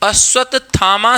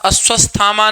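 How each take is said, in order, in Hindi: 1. बीच का संयुक्त व्यंजन 'tt' की तरह बोला जाता है। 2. बीच का संयुक्त व्यंजन 'st' की तरह बोला जाता है। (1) "अश्वत्थामा शब्द शुद्ध मिलता है" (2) "अश्वस्थामा नहीं"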